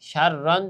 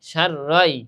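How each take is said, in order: First: The word ends with a clear n sound. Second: The n merges into the following y sound. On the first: The speaker calls it wrong. "যদি কি বলতাম সার রন" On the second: The speaker calls it right. "পরেরটা কি হবে জবর দিয়া পরেরটাকে ধরতে হবে"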